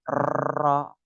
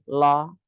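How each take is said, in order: First: The r is trilled long and heavily. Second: The r is replaced by an l sound. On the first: "terlalu bergetar banyak salah" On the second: "cadel itu juga salah"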